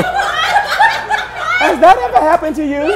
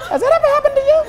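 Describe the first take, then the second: First: High, slow, drawn-out sing-song question; hammed-up teasing catchphrase; mock dramatic host. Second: Much higher teasing sing-song question; hammed-up teasing catchphrase; mock dramatic host. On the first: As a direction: stretch it out like a soap-opera announcer. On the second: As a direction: toss it up high like a game-show host.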